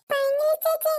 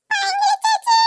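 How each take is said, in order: First: Said in the usual way. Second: Calling out. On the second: Acted. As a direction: call out after her. Calling after the upset girl.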